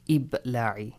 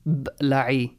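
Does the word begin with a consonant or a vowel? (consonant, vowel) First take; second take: vowel; consonant. First: The word begins with an added short i vowel. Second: The word begins directly with a consonant cluster. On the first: The speaker calls it right. "they assign hamzatul wasl with? Kasra" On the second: The speaker calls it wrong. "is that correct? ... it is difficult, you can't read it"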